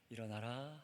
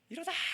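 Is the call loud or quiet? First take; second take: quiet; loud. First: The word is said quietly and softly. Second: The word is called out loudly. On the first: The speaker calls it wrong. "일어나라 하지 않고요" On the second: The speaker calls it right. "크게 부르죠"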